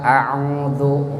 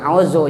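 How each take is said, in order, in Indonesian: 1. Konsonan tengah itu bunyi 'dz' yang lembut. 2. Konsonan tengah itu bunyi 'z' biasa. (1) "a'udzu bukan auzu" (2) "bukan auzu"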